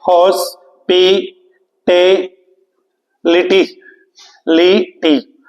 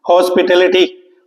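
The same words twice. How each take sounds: First: hospitality drawn out slowly, syllable by syllable; split into syllables. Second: Said in the usual way. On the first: Shown as a demonstration. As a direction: break hospitality into its syllables, each one slow and separate. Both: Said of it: "देखिए कितने syllable हैं इसमें?".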